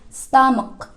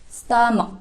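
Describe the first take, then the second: Both takes have the same delivery.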